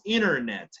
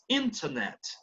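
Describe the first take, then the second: First: The T after the N is dropped. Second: The T after the N is clearly sounded. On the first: "an American says internet, ... no le hacen sonar a la T" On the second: "a British person says internet"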